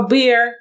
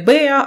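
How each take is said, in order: First: The word ends with an audible R sound. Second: The word ends without an R sound. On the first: This is the American pronunciation. "а bear. В кінці звук R" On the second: This is the British pronunciation. "не bear"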